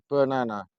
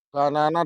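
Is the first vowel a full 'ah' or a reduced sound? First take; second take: reduced; full ah. First: The first syllable has a reduced, short vowel. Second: The first syllable has a full 'ba' sound. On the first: This is how it is spoken. The speaker calls it right. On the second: This is how it is written. The speaker calls it wrong. "B A"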